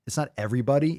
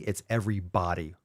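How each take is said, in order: First: Said in the usual way. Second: "everybody" split as every BODY; "everybody" said as two words, BODY weighted; stress on BODY. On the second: Shown as a demonstration. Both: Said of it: "And it's emphasized, body is emphasized".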